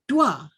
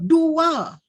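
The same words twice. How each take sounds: First: The vowels glide together into one syllable. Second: The vowels are said as two separate syllables. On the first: The speaker calls it wrong. "bukan dua" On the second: The speaker calls it right. "U tu mesti disebut dua"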